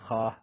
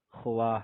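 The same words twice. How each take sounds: First: "خواہ" said as khah, waw dropped; read with silent waw. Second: "خواہ" said as khowah, waw sounded as written; spelled out with waw. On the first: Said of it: "لیکن پڑھتے کیا ہیں". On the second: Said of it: "اسی طرح خواہ لکھتے ہیں". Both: Shown as a demonstration.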